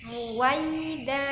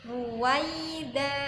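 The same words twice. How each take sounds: Both takes have the same delivery.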